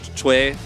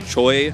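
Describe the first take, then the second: First: The name is pronounced with its Korean sounds. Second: The name is pronounced with English sounds. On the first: This is how the name is really pronounced. "Choi in Korean" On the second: This makes the name clear to English-speaking fans. "because we're casting in English, I always say Choi"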